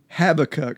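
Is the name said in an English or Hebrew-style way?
English. The name is said with a plain English pronunciation. This is the familiar, habitual way to say it. "that's probably the way I've always said it"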